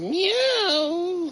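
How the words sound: The meow sounds happy, like a pleased cat.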